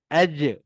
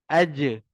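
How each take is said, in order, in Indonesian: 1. J akhir memantul dengan pelepasan singkat seperti vokal. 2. J akhir memantul dengan pelepasan singkat seperti vokal.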